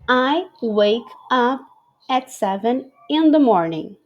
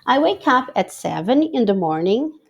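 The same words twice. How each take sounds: First: It is read a little more slowly. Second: It is read at a normal, quicker pace.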